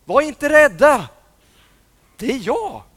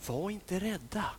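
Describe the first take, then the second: First: Calling out. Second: Quiet gentle "rädda"; soft reassurance. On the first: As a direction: call out to reassure them. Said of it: "en röst som ropade". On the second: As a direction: say it softly to calm them. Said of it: "fick de höra just de här orden". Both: Acted.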